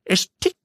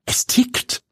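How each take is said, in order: First: Put-on much higher, innocent boyish voice; naive nephew. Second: Breathless, stunned whisper; shocked whisper. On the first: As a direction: say it without a clue. Neffe sagt es naiv. (naiv, viel höhere Jungenstimme) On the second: Acted. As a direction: freeze in horror. Pia erschrickt. (erschrocken geflüstert)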